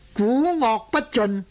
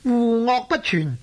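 First: The first syllable begins with a g sound. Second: The first syllable begins with a w sound. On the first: The speaker calls it wrong. "读做古恶不尽" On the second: The speaker calls it right. "是户恶不全的意思呢"

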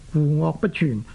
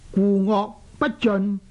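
First: The last syllable is pronounced chyun. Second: The last syllable is pronounced jeun. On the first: The speaker calls it right. "就叫做故恶不全" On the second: The speaker calls it wrong. "他们会读做故恶不尽，这样呢这个尽字呢就显然呢是读错了"

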